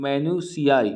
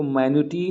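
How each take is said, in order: First: Minutiae said "mi-nyoo-shee-ai"; correct pronunciation. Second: Minutiae said as "menooti", the wrong way; wrong pronunciation. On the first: Teacher giving students the right sound of minutiae. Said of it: "इसका pronunciation है". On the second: Teacher showing students how not to say minutiae. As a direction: show the mistake: minutiae as "menooti". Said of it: "एक को minutiae नहीं पढ़ना है". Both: Shown as a demonstration.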